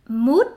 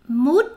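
No difference in how they are said.

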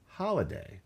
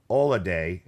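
First: The h at the start is pronounced. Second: The h at the start is dropped. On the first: This is the standard way of saying it. "instead of holiday" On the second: This is the Cockney way of saying it. "dropping the H... At the beginning of words"

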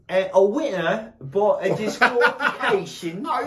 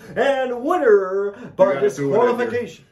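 First: It is said in a put-on British accent. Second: It is said in the speaker's normal accent.

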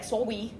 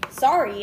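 First: The r sound comes out like a w. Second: The r sound is pronounced clearly. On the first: The speaker calls it wrong. "I'd be like, I mixed up my R's" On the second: The speaker calls it right. "instead of being like"

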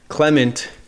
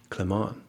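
First: The name is said with an American accent. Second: The name is said with a French accent. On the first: The speaker calls it wrong. "I was first calling you Clement in my American accent" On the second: The speaker calls it right. "Your name is Clement, and you hail from France"

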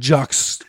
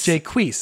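First: The name is said in one syllable. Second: The name is said in two syllables. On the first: The speaker calls it wrong. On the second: The speaker calls it right. "That's right"

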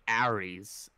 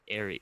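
First: The name is said with a New York accent. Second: The name is said with a standard accent. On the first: The speaker calls it wrong. "they'll say Aries" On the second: The speaker calls it right. "instead of like Aries"

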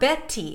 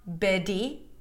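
First: The middle consonant is a crisp, true T. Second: The middle consonant is a strong, full D. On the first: "It's not a regular true T" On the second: "the flap T is not a strong D. It is not Betty"

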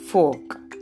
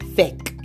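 First: The vowel is an 'or' sound. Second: The vowel is an 'e' sound. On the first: The speaker calls it right. "this word is fork" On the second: The speaker calls it wrong. "not feck. It is not feck. There is no word with O-R, with digraph O-R, given the sound E"

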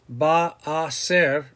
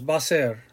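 First: It is said slowly with each word separate. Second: It is run together into two syllables. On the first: "sometimes we have a tendency to slow down the pronunciation" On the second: "when you pronounce it, it's like two syllables"

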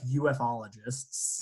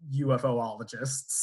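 First: No extra 'o' sound comes before '-logists'. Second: An extra 'o' sound comes before '-logists'. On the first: The speaker calls it right. "No double O" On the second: The speaker calls it wrong. "I actually don't know if I'm saying that right"

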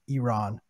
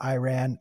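First: It is pronounced a non-American way. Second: It is pronounced the common American way. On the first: The speaker calls it right. "every American says it wrong" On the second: The speaker calls it wrong. "Not Iran"

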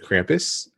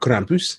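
First: The name is said the usual English way. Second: The name is said the Swedish way.

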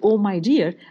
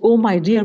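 First: It sounds warm and caring. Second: It sounds impatient and hurried.

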